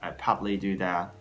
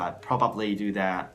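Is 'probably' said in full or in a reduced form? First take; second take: reduced; full. First: Probably is said in a shortened, reduced form. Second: Probably is said in full, all syllables clear. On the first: "Maybe the latter is a little bit easier" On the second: "a little bit harder to say"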